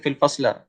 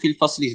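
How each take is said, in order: First: The last word ends in an a vowel. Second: The last word ends in an i vowel. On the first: The speaker calls it wrong. "Tak kata fil fasla" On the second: The speaker calls it right. "jalastu fil fasli sana"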